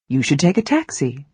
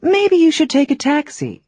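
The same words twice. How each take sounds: First: Firm advice. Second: "Maybe" lifted high, gentler suggestion; softened advice. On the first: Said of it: "That is definite, clear, and strong advice". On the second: Teacher softening advice to a friend going to the airport, gentle. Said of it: "You can soften that advice with maybe". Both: Shown as a demonstration.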